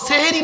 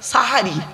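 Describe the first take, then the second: First: The first vowel is an e sound. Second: The first vowel is an a sound. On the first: It means doing magic. The speaker calls it wrong. "সেহেরি নয় শব্দটা" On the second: It means the pre-dawn meal. The speaker calls it right. "দন্তেশ্বয় আকার"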